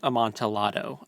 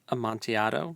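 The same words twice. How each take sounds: First: The double L is pronounced as an L. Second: The double L is not pronounced as an L. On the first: The speaker calls it wrong. "I don't think the L's are um, pronounced like it's not" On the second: The speaker calls it right. "I think it's Amontillado"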